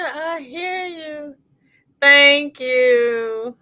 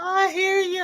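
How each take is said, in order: First: Fading laugh. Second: High, laughing through tears; words squeezed out laughing. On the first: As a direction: let the laugh trail off slowly. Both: Real, not acted. Laughing at panda joke.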